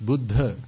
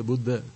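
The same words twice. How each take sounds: First: "Buddha" with aspirated dh; correct "Buddha". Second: "Buddha" with unaspirated d; mispronounced "Buddha". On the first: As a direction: lean on the breathy dh in "Buddha". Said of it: "It's Buddha". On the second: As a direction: flatten the dh of "Buddha" to d. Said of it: "There's no one called". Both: Shown as a demonstration.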